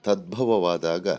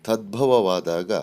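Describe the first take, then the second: The two takes are said the same way.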